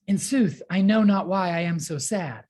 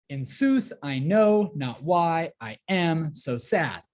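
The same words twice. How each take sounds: First: Said in the usual way. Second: Slow, heavy beats on "sooth", "know", "why", "am", "sad"; exaggerated iambic rhythm. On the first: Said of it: "sound more like the way we speak". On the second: Shown as a demonstration. Teacher quoting Romeo from the play, overemphasized "sooth", "know", "sad". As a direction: pound every second syllable: "in SOOTH I KNOW not WHY I AM so SAD". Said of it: "overemphasize, exaggerate every other one like that".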